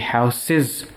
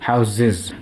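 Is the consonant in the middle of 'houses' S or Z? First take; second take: S; Z. First: The middle consonant is a hissing S sound. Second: The middle consonant is a buzzing Z sound. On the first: The speaker calls it wrong. "It won't be houses" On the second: The speaker calls it right. "with a Z sound"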